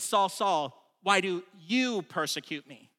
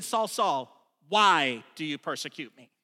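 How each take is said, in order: First: YOU drawn out and set apart after "why do"; a long, emphasized YOU mid-question; stress on YOU. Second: A long, punched WHY opening the question; stress on WHY. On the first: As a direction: make it personal by leaning on "you". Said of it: "repeated the question this way". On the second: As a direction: hit the word "why" hard, then let the rest drop. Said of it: "Chuck said it this way". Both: Shown as a demonstration.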